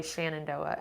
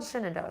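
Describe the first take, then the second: First: "Shenandoah" said SHAN-an-DOH-ah; short a at the start of "Shenandoah"; possible local pronunciation. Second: "Shenandoah" said SHIN-an-DOH-ah; short i at the start of "Shenandoah"; pronounced as spelled. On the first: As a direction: open "Shenandoah" with SHAN, rhyming with can. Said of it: "if locals say Shenandoah". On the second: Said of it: "but it's spelled Shenandoah". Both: Shown as a demonstration.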